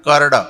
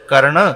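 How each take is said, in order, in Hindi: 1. अंतिम व्यंजन d जैसा स्पर्श व्यंजन है। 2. अंतिम व्यंजन नासिक्य ध्वनि है। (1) "अब इसमें नाक का स्वर नहीं आया" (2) "ना के स्वर से, और शुद्ध है कर्ण"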